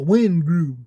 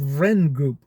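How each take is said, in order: First: It starts with a W sound, no R. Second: It starts with a V sound and an R. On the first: This is how people in America say it. "we call it the Wen Group, the R silent" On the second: This is the technically correct original form. "technically it should be called Vren"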